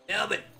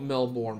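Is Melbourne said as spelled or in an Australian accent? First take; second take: Australian; as spelled. First: It is said in an exaggerated Australian accent. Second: Every letter is pronounced as it is spelled. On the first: "that was like the worst Australian accent" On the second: "because that's how you write it"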